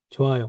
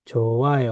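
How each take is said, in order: First: Said in the usual way. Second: Slow model. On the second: Shown as a demonstration. Teacher models word slowly, then normally.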